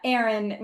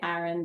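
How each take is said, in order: First: Aaron is said with the Maryland pronunciation. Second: Aaron is said with the New York pronunciation. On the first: This is how people around them said it. "Aaron won out because we grew up in Maryland" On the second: Nobody in that place would say it this way. "No one's going to say Aaron there"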